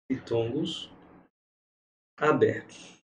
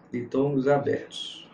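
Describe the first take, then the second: First: "ditongos" and "abertos" each set apart by a long pause, soft; drawn-out teacher dictation of "ditongos abertos"; spaced-out dictation. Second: Said in the usual way. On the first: Shown as a demonstration. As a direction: dictate each word slowly for the class to note down.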